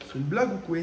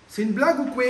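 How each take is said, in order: First: Said in the usual way. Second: Repeated with a real edge of exasperation; exasperated disbelief. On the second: Real, not acted. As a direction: throw up your hands at the bad joke. Wrong part won't fit.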